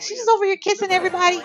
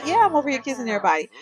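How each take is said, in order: First: Voicing the jealous Sim. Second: Said in the usual way. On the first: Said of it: "She's like".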